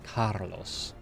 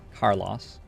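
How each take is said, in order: First: The name is said in a Spanish accent. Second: The name is said in a New Zealand accent. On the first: "if I were trying to speak Spanish, I would try to say like Carlos" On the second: "In New Zealand, I would just say Carlos"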